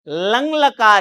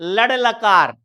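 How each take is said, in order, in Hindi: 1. पहला शब्द नासिक्य ng की ध्वनि पर खत्म होता है। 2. पहला शब्द फ़्लैप r की ध्वनि पर खत्म होता है। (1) "लंग लकार है ये" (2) "बच्चे अशुद्ध बोलते हैं"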